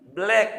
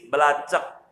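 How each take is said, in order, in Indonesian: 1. Kata itu diucapkan satu suku kata. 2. Kata itu diucapkan tiga suku kata. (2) "Ya salah"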